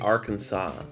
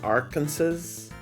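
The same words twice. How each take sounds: First: The word ends like "saw", with no final s. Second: The word ends like "Kansas", with a final s. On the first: "but you say Arkansas" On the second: "spelled as Arkansas"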